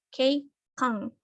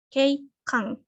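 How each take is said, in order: Both takes have the same delivery.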